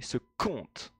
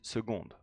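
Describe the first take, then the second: First: The middle consonant sounds like a hard k. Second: The middle consonant sounds like a g. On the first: The speaker calls it wrong. "Do not say seconde" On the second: The speaker calls it right. "It is seconde"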